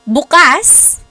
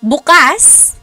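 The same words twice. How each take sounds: First: The stress is on the second syllable. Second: The same.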